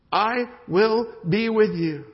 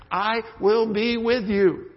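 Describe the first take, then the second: First: Higher, louder, slow, stress on with; God repeating His promise with emphasis; emphatic promise. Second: Higher, louder and slow, stress on with; God assuring Moses, slow and firm; emphatic promise. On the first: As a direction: stretch "with" with weight. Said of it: "There's even an emphasis on it". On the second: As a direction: lean on "with" and draw it out. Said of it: "And God says". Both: Acted.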